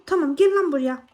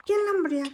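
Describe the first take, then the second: First: Louder, punch GEL in "gel lan buraya"; angry call. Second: Higher, fed-up "gel lan buraya"; higher angry call. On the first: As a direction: challenge it to come over. ("gel" vurgulu, kızgın çağrı) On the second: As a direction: taunt it, pitch up. (daha tiz, sinirli "gel lan buraya") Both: Real, not acted. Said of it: "Sinirlendirdiniz beni".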